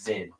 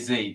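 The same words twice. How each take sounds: First: The letter is named the non-American way. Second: The letter is named the American way. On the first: This is how the rest of the English-speaking world says it. The speaker calls it right. "The rest of the English-speaking world says Z" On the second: This is how Americans say it. The speaker calls it wrong. "Only Americans say Z"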